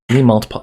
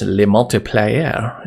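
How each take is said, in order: First: Said in the usual way. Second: Slow, hammed-up French "le multiplier"; drawn-out joke French "le multiplier"; mock French accent. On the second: Shown as a demonstration. Coding tutor jokes that the name sounds French, slow mock French accent. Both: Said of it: "that almost sounds French".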